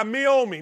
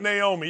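First: "Miomi" said as mee-OH-mee; Miomi corrected. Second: Said in the usual way. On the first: Shown as a demonstration. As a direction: stress the OH in "Miomi". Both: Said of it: "not Naomi".

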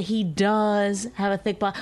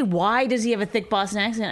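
First: DOES stressed as a plain statement; matter-of-fact statement. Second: WHY punched as a doubting question; a challenging why-question; stressed question. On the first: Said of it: "I said". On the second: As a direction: lean on WHY like you're questioning it. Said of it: "I didn't say". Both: Shown as a demonstration.

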